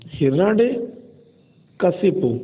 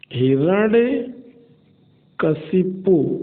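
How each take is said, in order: First: हिरण्यकशिपु drawn out syllable by syllable; slow pronunciation. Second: हिरण्यकशिपु stretched out even more slowly, each syllable held; very slow pronunciation. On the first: Teacher slowly models हिरण्यकशिपु for spelling students. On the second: Teacher repeats हिरण्यकशिपु very slowly for students. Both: Shown as a demonstration. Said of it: "हिरण्यकशिप होता है".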